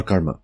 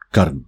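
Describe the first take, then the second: First: "karma" said with its final vowel; English-style "karma" ending in a; English pronunciation. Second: "karma" said as one syllable, "karm"; Hindi-style "karma" without the last a; Hindi pronunciation. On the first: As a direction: say "karma" in two syllables, the English way. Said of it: "pronounced karma in English". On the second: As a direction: drop the final vowel of "karma", as in Hindi. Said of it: "karm in Hindi". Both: Shown as a demonstration.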